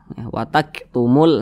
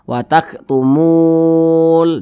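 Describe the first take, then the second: First: The vowel after the m is kept short. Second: The vowel after the m is drawn out long. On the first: The speaker calls it right. "tidak dibaca panjang" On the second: The speaker calls it wrong. "Jangan dibaca"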